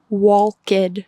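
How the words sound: It is said with Spanish spelling-based pronunciation. The speaker calls it wrong. "In Spanish, this word would be pronounced walked. It sounds weird"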